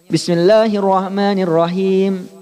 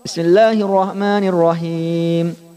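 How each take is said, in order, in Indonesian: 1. Vokal terakhir ditahan selama dua ketukan. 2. Vokal terakhir ditahan selama empat ketukan. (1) "Ini dua semuanya" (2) "Atau ambil empat"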